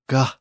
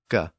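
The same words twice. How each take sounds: First: The G is released with a strong puff of breath. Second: The G is released without extra breath. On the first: "a very aspirated G sound" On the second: "a regular G sound"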